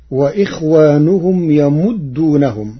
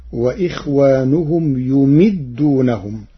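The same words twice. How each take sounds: First: يمدونهم as yamuddūnahum; يمدونهم with fatha on ya and damma on mim; Hafs reading. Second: يمدونهم as yumiddūnahum; يمدونهم with damma on ya and kasra on mim; Warsh reading. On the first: Teacher quoting the standard reading, recited. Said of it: "قرأ ورش كلمة يمدونهم". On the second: Teacher reciting Warsh's variant to the class. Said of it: "بضم الياء وكسر الميم". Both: Shown as a demonstration.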